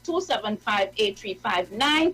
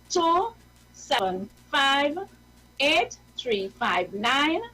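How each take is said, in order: First: The numbers are said at normal speed. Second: The numbers are said slowly.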